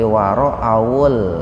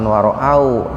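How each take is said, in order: First: The word ends with the w linked into 'ul'. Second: The word ends in a closed 'au' sound. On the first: The speaker calls it right. "tapi waro'awul" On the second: The speaker calls it wrong. "bukan waro'au"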